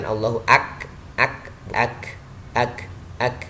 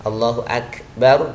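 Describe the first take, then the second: First: "Allahu ak" broken off on the k; wrong kaf release. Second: "Allahu Akbar" with air escaping on the k; kaf with hams. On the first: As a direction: stop on "ak" and repeat it in separate pieces. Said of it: "Bukan memantul, tapi hems". ("Allahu ak" terputus di huruf kaf) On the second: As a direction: let the k of "Akbar" breathe out. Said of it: "hems. Ada udara yang keluar". ("Allahu Akbar" dengan kaf berembus) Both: Shown as a demonstration.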